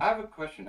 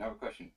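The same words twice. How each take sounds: First: Loud and high, grabbing attention; calling out. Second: Said in the usual way. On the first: Real, not acted. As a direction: call it out over the room. Calls out for attention.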